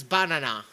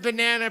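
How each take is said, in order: First: Banana as "BON-uh-nah"; odd pronunciation. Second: Said in the usual way. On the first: Shown as a demonstration. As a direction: shift the stress in banana to the first syllable. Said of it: "pronounced as banana". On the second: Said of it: "I've heard banana pronounced as".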